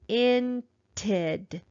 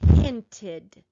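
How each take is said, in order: First: It is sounded out slowly. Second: It is said faster still.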